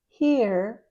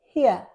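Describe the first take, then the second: First: It is said in an American accent. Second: It is said in a British accent. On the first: "in American English" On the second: "but in British English"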